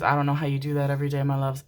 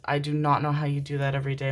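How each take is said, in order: First: Fast, run-together words; quick remark. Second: "not" firmly punched; stress on "not". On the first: To Libra viewers about their daily emotions, quick run-together delivery. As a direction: rattle it off quickly. First take, before emphatic repeat. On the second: To Libra viewers about their daily emotions, emphatic stress on "not". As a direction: separate "do not", leaning on "not". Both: Real, not acted.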